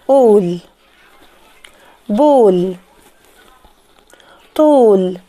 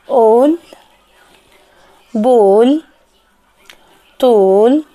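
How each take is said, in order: Both takes have the same delivery.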